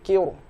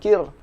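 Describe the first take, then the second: First: The r sound is heavy and thick. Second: The r sound is light and thin. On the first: The speaker calls it right. "tapi kir, menjadi tebal" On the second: The speaker calls it wrong. "bukan kir"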